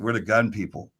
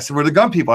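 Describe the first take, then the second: First: It sounds threatening. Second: It sounds happy.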